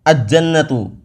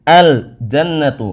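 First: The l merges into a doubled j sound. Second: The l is clearly pronounced before the j. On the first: The speaker calls it wrong. "enggak boleh" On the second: The speaker calls it right. "Harus dibaca dengan jelas terang benderang alnya"

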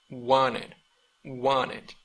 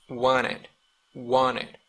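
No difference in how they are said.

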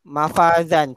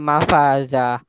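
First: The word ends with an n sound. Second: The word ends in a plain long a. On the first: This is the word as written, with its nunation. "mafazan tanwin atas" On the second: This is how the word is read when stopping on it. "Ah tu kena baca mafaza"

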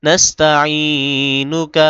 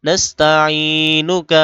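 Both takes have the same delivery.

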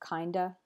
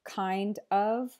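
First: The word 'of' is reduced to a weak vowel. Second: The word 'of' is said in full. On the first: "you'll often just hear kinda" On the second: "instead of kind of"

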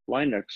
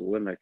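First: The first syllable sounds like 'line'. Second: The first syllable sounds like 'lin'. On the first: It follows the name of the inventor. "because it was invented by Linus Torvalds ... So I figured Linux" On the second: It is how most people say it. "the whole world calls it Linux"

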